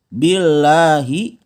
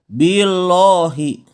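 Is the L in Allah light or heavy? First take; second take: light; heavy. First: The L sound is light and thin. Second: The L sound is heavy and thick. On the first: The speaker calls it right. "Maka cara bacanya dia harus tipis" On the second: The speaker calls it wrong. "jangan dibaca billahi"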